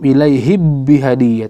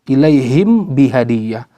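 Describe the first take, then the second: First: The m is merged fully into the b. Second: The m is pronounced fully and separately. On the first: "atau idgham" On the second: "tidak dibaca izhar"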